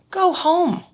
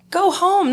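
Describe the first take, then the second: First: "Go home." said much higher, sweeping down; a high insistent push to just go home; high urging go home. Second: "Go home." repeated high with a little more push; higher again go home. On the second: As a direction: press the point high and firm. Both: Retold or imitated. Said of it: "And I was like".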